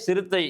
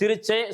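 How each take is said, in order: First: The middle consonant is a 't' sound. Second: The middle consonant is a 'ch' sound. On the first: The people killed a leopard. The speaker calls it right. "ஊர் மக்கள் சிறுத்தை புலியை கொன்றனர். அதுதான் செய்தி" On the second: The people killed the tiger by laughing. The speaker calls it wrong. "இவன் வாசிக்கும்போது எப்படி மாத்திட்டான்?"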